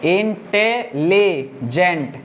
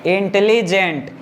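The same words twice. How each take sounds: First: intelligent very slowly as इन, टे, ली, gent; four separate beats in intelligent; syllable by syllable. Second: Said in the usual way. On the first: Shown as a demonstration. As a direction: break intelligent after every syllable, counting them out. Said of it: "चार syllable हो जा रहा है". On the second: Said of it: "एक बार में इतना पढ़ेंगे".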